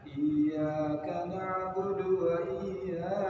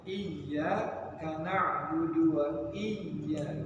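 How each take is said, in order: First: The y sound flows smoothly without pressure. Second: The y sound is pressed hard and doubled. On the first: The speaker calls it wrong. "Jangan mengalir" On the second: The speaker calls it right. "tapi ditekan"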